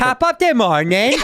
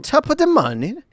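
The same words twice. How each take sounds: First: Put-on laughing, slow English accent, higher; slow, giggly imitation of his English accent; mocking a bad English accent. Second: Bad English accent, much higher; mangled English accent pitched way up; a hammed-up English accent, high. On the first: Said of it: "English accent with an Irish phrase". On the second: Shown as a demonstration. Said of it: "we thought my English accent was bad".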